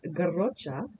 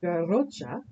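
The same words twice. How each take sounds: First: It is said with a Catalan pronunciation. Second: It is said with a Catalan pronunciation.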